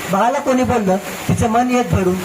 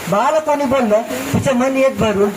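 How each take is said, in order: Both takes have the same delivery.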